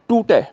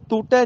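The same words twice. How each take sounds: First: ਟੂਟੈ punched loud with two retroflex ṭ sounds; hard retroflex t. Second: ਟੂਟੈ said with soft dental t's, tongue on the teeth. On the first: Teacher correcting the class, ਟੂਟੈ with hard retroflex ṭ. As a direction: curl the tongue back for both t's in ਟੂਟੈ. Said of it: "ਟੈਂਕੇ ਆ ਦੋਨੋਂ ਥਾਵਾਂ ਤੇ". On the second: Teacher showing the mistake to avoid, ਟੂਟੈ with dental t. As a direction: say ਟੂਟੈ with ਤ sounds in place of ਟ. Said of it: "ਇਹਨੂੰ ਟੂਟੈ ਨਹੀਂ ਕਹਿਣਾ, ਤੱਤੇ ਨਾਲ ਨਹੀਂ". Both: Shown as a demonstration.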